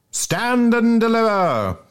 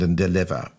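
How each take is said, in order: First: High, drawn-out mock challenge; playful highwayman call. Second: Said in the usual way. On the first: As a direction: call it out slowly like a playful hold-up. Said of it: "Bob Cherry playfully called". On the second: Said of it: "playfully called on the fat junior".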